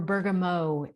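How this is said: The word is said with a French pronunciation.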